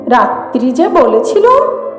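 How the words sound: It is said mockingly, imitating her voice.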